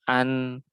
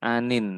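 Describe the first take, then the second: First: The word ends bare, with no final 'in'. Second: The word ends with a final 'in' syllable. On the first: The verse-final word is stopped on. The speaker calls it right. "ini disukun jadinya" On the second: The word is read as if not stopping. The speaker calls it wrong. "bukan anin ya"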